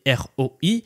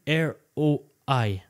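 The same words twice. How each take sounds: First: The letters are spoken with a French accent. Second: The letters are spoken with an English accent.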